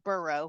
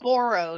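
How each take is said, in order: First: The first syllable sounds like 'burr'. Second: The first syllable sounds like 'bore'. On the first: The speaker calls it wrong. "not burrow. It's not a donkey" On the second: The speaker calls it right. "It's Boro"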